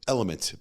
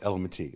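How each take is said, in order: First: The name ends without an extra 'ee' sound. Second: The name ends with an extra 'ee' sound. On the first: This is the usual way of saying it. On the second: This is the speaker's own way of saying it.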